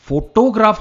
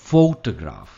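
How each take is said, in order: First: The stress falls on a later syllable. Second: The stress falls on the first syllable. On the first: The speaker calls it wrong. "Photograph हम नहीं कहते" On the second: The speaker calls it right. "Photograph में stress first part पर है"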